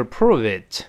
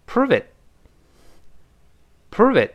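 First: "prove it" drawn out with a released final t; slow, careful reading. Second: "prove it" run together fast, final t unreleased; quick linked reading. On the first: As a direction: fully articulate "prove it". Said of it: "读慢的时候是". (慢读prove it，t音读清楚) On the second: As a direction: snap through "prove it", pitched high, holding back the t. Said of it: "我们读快一点". (快速连读prove it，t失去爆破) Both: Shown as a demonstration.

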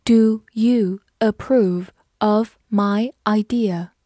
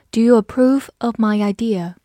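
First: Very slow, word by word; slow reading. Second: Said in the usual way. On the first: Shown as a demonstration. Teacher asking if you approve, read slowly for learners. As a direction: space out each word of the question. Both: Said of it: "慢慢来读".

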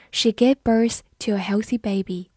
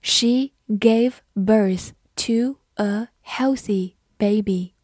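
First: Said in the usual way. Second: Slow, deliberate model with gaps between words; slow reading. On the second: Shown as a demonstration. Teacher slowly modelling a birth sentence for learners, slow reading. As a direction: say each word slowly and separately. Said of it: "好，慢读一遍".

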